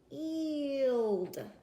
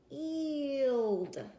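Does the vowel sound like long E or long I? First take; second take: long E; long E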